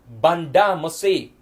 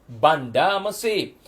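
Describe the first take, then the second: No difference in how they are said.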